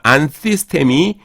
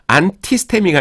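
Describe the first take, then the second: First: The consonant after 'an' is a th sound. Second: The consonant after 'an' is a plain t. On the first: The speaker calls it right. "이 타우가 C로 변하는 거" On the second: The speaker calls it wrong. "아니라"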